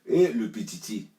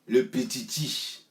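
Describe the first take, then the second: First: Slow, louder mock of le petiti, stretching petiti; mocking drawl. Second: Le petiti drawn out slow, ending on a rising questioning tune; mocking rise. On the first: Mocking the little one in a fight story, a slow scornful drawl. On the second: Repeating the jibe at the little one, slow with a teasing rise. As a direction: let le petiti hang up in the air, teasing.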